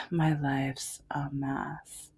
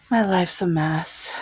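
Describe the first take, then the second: First: Breathy whispered aside, slow; hushed, slow self-pity whisper. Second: Said in the usual way. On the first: Real, not acted. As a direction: drop to a slow whisper to yourself. Repeats line as a whisper.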